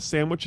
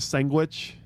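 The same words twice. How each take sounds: First: It is said with a standard pronunciation. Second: It is said with a local Southern drawl. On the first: "Instead of a sandwich" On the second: "it's a sandwich"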